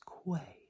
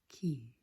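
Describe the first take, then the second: First: The word is said like 'kway'. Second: The word is said like 'key'. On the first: The speaker calls it wrong. "it looks like it would be pronounced as quay" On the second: The speaker calls it right. "it is pronounced key"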